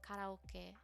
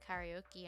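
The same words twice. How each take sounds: First: It is pronounced with Japanese-style sounds. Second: It is pronounced with English-style sounds. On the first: This is the original form of the word. The speaker calls it right. "it's literally like a Japanese thing, I think, and it's karaoke" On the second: This is how Western speakers say it. The speaker calls it wrong. "We call karaoke karaoke"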